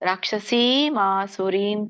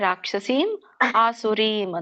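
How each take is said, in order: First: The two words are joined without a break. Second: The two words are said separately with a break.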